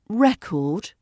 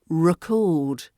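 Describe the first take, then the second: First: The stress is on the first syllable. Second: The stress is on the second syllable. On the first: It is used as a noun. "the noun record, where the stress falls on the first syllable" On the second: It is used as a verb. "the verb record, where the stress falls on the second syllable"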